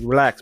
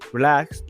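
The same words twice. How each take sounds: First: It is said in a harder, aggressive tone. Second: It is said in a calm, polite tone. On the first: The patience is running out. "Now I get more in my aggression" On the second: A first, gentle warning. "I might be polite at first"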